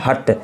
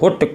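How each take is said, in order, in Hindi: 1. स्वर but के u जैसा सुनाई देता है। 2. स्वर book के oo जैसा सुनाई देता है। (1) "इसको पढ़ना है हट" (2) "ऐसे नहीं पढ़ना है"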